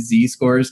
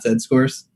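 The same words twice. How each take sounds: First: Z is said as 'zee', American style. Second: Z is said as 'zed', non-American style.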